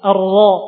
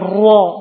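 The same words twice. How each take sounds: First: The ra is thickened by raising the tongue. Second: The ra is thickened by pushing the lips forward. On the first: The speaker calls it right. "dengan mengangkat lidah ke atas ra" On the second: The speaker calls it wrong. "bukan memajukan mulut, bukan ra"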